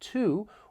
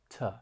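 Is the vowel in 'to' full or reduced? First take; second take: full; reduced. First: The word has a full, clear vowel. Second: The word has a weak schwa vowel. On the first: "When stressed, it sounds like to" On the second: "When unstressed, it may sound like it has that schwa sound"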